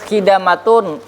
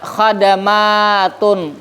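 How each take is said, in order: First: The first syllable has the vowel 'i'. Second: The first syllable has the vowel 'a'. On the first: The speaker calls it right. "hanya harakat di tengahnya" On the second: The speaker calls it wrong. "digantinya harakat awalnya"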